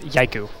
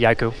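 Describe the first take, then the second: First: The name is pronounced the European way. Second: The name is pronounced the Finnish way. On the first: "If you're from Europe" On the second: "From Finland, they say"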